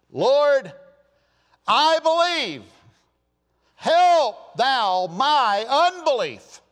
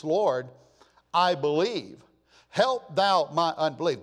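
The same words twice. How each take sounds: First: High, loud, drawn-out desperate plea; tearful crying out. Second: Said in the usual way. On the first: Acted. Father of the child begging Jesus, crying out with passion. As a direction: cry out as a pleading father. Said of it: "cried out and said with tears".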